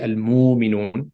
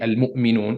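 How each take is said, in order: First: A w sound follows the mu. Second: A glottal stop follows the mu. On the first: "you switch it to a waw" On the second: "Instead of saying"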